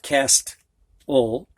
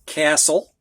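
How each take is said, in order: First: "castle" said KAST-ul with a clear T, slowly; slow, deliberately wrong "castle" as KAST-ul; T pronounced. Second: "castle" said KASS-ul with no T sound; silent T. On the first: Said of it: "It's not castle". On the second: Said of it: "You don't hear the T". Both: Shown as a demonstration.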